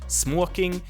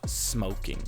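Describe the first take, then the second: First: The word is pronounced in a Swedish way. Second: The word is pronounced in an English way. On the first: "The one is more Swedish" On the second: "the other one is more English"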